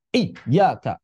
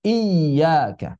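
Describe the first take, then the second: First: Iyyaka with the yy cut off abruptly; clipped yy in Iyyaka; broken nabar. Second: Iyyaka with the yy gliding on; smooth unbroken yy in Iyyaka; flowing yy. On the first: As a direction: chop the flow on the yy of Iyyaka. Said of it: "Ada sebagian orang nabar begitu". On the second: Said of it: "Mesti tetap mengalir". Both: Shown as a demonstration.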